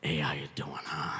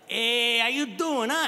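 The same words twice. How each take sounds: First: The tone is somber and subdued. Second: The tone is cheerful and upbeat. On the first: The occasion is one of mourning. "the same relative six months later at a funeral" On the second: The occasion is a happy celebration. "That's at a wedding"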